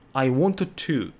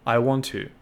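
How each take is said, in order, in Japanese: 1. 2つのtの音は、どちらも別々に発音します。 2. 2つのtの音は、1つにくっつきます。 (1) "このように発音じゃなくて" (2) "もう1 個として発音します。"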